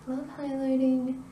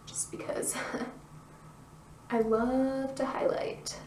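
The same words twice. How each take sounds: First: Said in the usual way. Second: Giggly slow whisper. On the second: Real, not acted. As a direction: whisper it through a little laugh.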